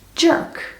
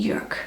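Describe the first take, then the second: First: It is said the American way, like jerk. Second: It is said the German way, with a rounded vowel. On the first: It sounds like an insult. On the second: It is simply a common German name.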